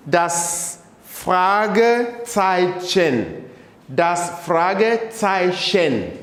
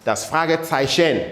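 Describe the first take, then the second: First: Fragezeichen stretched slowly, clear ts sound; slow model pronunciation. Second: Said in the usual way. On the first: Shown as a demonstration. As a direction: drill it slowly for the class. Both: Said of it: "pronounce them again".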